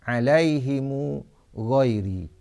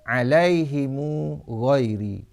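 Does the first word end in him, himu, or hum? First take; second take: himu; himu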